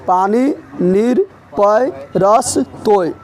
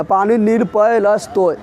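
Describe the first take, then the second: First: पानी, नीर, पय, रस, तोय slow, word by word; slow dictation. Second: Said in the usual way. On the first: Shown as a demonstration. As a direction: stretch पानी and नीर with rising list tune, pausing after each. Teacher repeats list slowly for pupils.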